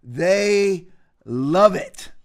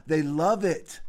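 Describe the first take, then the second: First: Very slow, "They" and "love it" split by a pause; slow, deliberate repeat for effect; drawn-out emphasis. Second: Said in the usual way. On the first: Real, not acted. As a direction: stretch "They", pause, then land "love it".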